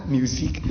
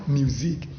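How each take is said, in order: Both takes have the same delivery.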